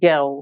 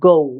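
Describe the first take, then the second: First: It is said in a British accent. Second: It is said in an American accent. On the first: "এইটা যখন ব্রিটিশরা বলবে তখন গ্যাও" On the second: "আর এটা যদি আমেরিকানরা বলে কি হবে?"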